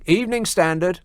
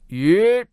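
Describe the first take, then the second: First: All the syllables of the phrase are pronounced. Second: The phrase is squashed into one short sound. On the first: This is the original phrase before it wore down. "initially they must have been saying Evening Standard, which is quite a lot of syllables" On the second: This is the phrase worn down by endless repetition. "got smoothed out over time until it became"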